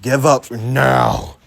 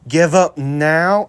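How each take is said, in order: First: It is said in a deeper voice. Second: It is said in a normal voice.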